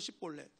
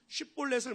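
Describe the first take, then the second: First: The word begins with a plain 's' sound. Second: The word begins with an 'sh' sound. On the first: The speaker calls it wrong. "못해서 십볼렛" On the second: The speaker calls it right. "쉽볼렛을 못해서"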